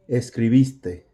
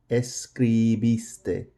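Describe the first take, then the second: First: Said in the usual way. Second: "Escribiste" slow and softer, syllable by syllable. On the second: Shown as a demonstration. Teacher models past tense for students, slow syllables of "Escribiste". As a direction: draw out each syllable of "Escribiste". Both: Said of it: "that's gonna be your loudest portion".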